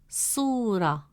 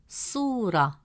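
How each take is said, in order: Both takes have the same delivery.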